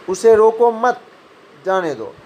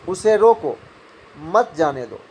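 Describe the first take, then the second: First: There is a pause right after 'मत'. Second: There is a pause right after 'रोको'. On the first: The person should be allowed to leave. "मत के बाद अल्प विराम हुआ तो जाने की बात हो गई।" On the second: The person should be stopped from leaving. "रोको के बाद अल्प विराम हुआ तो यहाँ रुक रोकने की बात हो गई।"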